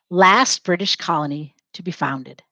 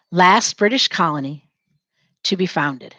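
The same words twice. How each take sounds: First: Said in the usual way. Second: Dictation pace. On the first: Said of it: "Say it". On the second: Shown as a demonstration. Teacher dictating to students as they write, phrase by phrase. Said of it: "Say it as you're writing it down".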